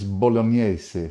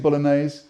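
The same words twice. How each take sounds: First: The word is pronounced in an Italian way. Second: The word is pronounced in an anglicized way. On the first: The speaker calls it right. "the true correct way of saying it is bolognese" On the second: The speaker calls it wrong. "it's not spaghetti bolognese. It may well be all over London and the rest of England"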